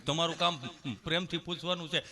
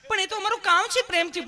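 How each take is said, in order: First: Said in the usual way. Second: Very high, louder mock-sweet nurse voice; hammed-up tender nurse; loving nurse. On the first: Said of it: "એટલું બધું પ્રેમથી નહીં પૂછવાનું". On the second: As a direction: plead sweetly in a put-on high voice. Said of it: "પ્રેમથી પૂછો છો".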